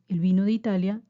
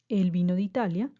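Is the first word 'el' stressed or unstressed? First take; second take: unstressed; stressed. First: The first word 'el' is unstressed. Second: The first word 'el' carries stress. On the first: The wine is from Italy. "nos referimos a la bebida" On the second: A man came from Italy. "nos referimos a una persona"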